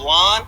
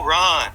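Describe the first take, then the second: First: The word begins with a clear L sound. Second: The word begins with an R sound.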